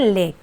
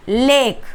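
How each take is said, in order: First: लेक said the right way; correct version. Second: लेक said the mistaken way; wrong version. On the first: Teacher gives students the correct लेक. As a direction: give the right reading of लेक. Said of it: "इसे क्या पढ़ते हैं". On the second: Teacher shows students the wrong लेक. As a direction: give the wrong reading of लेक. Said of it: "लेक नहीं". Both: Shown as a demonstration.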